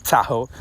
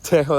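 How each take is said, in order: First: Said in the usual way. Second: "Tahoe" with the first vowel shifted toward "teh"; Michael. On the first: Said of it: "I don't say it like that". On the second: Retold or imitated. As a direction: mimic a "Teh-ho" pronunciation of "Tahoe". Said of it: "that's how Michael says it".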